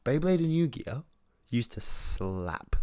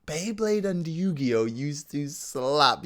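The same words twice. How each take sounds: First: Said in the usual way. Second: "Beyblade and Yu-Gi-Oh used to slap" drawn out and higher; emphatic hype. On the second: Real, not acted. Fan hyping up childhood toys, emphatic and drawn out on "slap". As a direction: stretch each word slowly, leaning hard on "slap".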